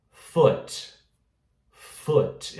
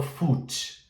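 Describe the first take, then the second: First: Short, lax oo in "foot"; correct pronunciation. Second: Tense, long oo in "foot"; wrong pronunciation. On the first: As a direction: say "foot" between oo and oh. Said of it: "Eu falo foot". ("foot" com U curto) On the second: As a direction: say "foot" like "foooot". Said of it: "Eu não falo foot". ("foot" com U longo e forte) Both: Shown as a demonstration.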